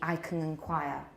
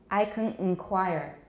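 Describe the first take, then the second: First: It has a British accent without the final r. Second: It has an American accent with the final r. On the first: "In British, it would be" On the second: "But in American, it's"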